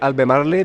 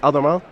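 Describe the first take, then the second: First: It is said with a Chilean Spanish pronunciation. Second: It is said with an English pronunciation. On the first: "In Chile, we say" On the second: "But the real name is"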